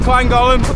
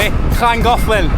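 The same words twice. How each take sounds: First: The name is pronounced in an anglicized way. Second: The name is pronounced in the Welsh way. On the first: The speaker calls it wrong. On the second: The speaker calls it right. "that's how you say it in Wales"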